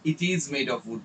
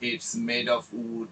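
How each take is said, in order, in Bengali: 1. "It is" দুটি পূর্ণ শব্দ হিসেবে বলা হয়। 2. "It is" সংকুচিত হয়ে "it's" হয়ে যায়।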